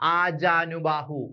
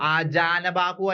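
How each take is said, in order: First: The vowel before bahu is u. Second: The vowel before bahu is a. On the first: The speaker calls it right. "ഉകാരമാണ് വരേണ്ടത്" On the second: The speaker calls it wrong. "അല്ല"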